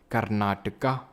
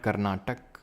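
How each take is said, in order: First: The name ends with a final vowel sound. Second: The name ends with a final consonant sound. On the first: The speaker calls it right. "please pronounce it as Karnataka" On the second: The speaker calls it wrong. "not Karnatak"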